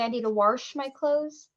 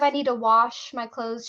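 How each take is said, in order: First: It is said in grandmother's Arkansas accent. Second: It is said in a standard American accent.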